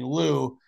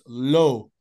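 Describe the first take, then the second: First: The vowel is a long 'oo' sound. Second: The vowel is an 'oh' sound. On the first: This is the anglicized English form. The speaker calls it wrong. "They're saying loo" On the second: This is the original French form. The speaker calls it right. "it's correctly pronounced en français, it's low"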